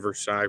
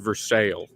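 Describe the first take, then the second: First: It is pronounced the French way. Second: It is pronounced the anglicized local way.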